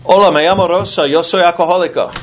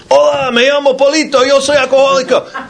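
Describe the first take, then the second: First: Higher, quick voice of a Spanish-speaking woman; Spanish woman on phone. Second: Much higher, squeaky little voice for Polito; squeaky caller. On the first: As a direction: play a woman introducing herself at an AA meeting by phone. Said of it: "some woman's voice who says". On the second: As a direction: pitch it way up like a tiny voice. AA members pass the phone. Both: Retold or imitated.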